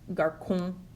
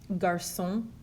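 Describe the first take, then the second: First: The C is said like a K. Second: The C is said like an S. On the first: The speaker calls it wrong. "if they didn't have the accent mark, it would be" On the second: The speaker calls it right. "with the cedilla, you have"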